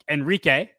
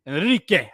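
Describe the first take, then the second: First: Said in the usual way. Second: "Enrique" with a clumsy attempt at a rolled R; overdone Spanish "Enrique", R not quite rolling. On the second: Shown as a demonstration. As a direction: try to trill the R in "Enrique". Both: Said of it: "I can't roll the R".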